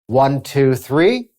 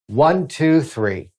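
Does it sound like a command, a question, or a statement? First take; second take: question; command. First: It rises at the end like a question. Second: It is said firmly like a command.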